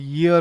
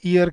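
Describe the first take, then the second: First: It starts with a y sound. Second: It starts with a vowel, like 'ear'. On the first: The speaker calls it right. "इसकी actually pronunciation ईयर ईयर होती है" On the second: The speaker calls it wrong. "हम इसको pronounce करते हैं ईयर की तरह"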